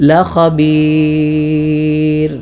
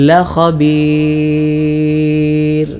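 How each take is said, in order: No difference in how they are said.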